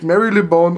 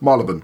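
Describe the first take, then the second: First: Every written syllable of the name is pronounced. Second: The name is said in a shortened form. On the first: "Das Wort schreibt sich Marylebone" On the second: "ausgesprochen wird es Marylebone"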